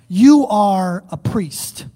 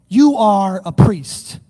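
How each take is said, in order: No difference in how they are said.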